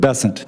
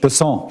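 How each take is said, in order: First: The name is said the plain American, South Carolina way. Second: The name is said the French, South Louisiana way.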